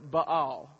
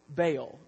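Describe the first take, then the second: First: The name has a Hebrew pronunciation. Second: The name has an English pronunciation.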